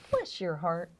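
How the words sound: It is said warmly and sincerely.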